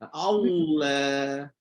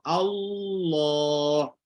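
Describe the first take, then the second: First: The heavy sound collapses partway through. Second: The heavy, full sound is held throughout. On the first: The speaker calls it wrong. "tiba-tiba pancit tengah jalan. Eh, jatuh balik" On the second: The speaker calls it right. "Naik dan shoot terus lah. ... Gunakan kedudukan yang sama"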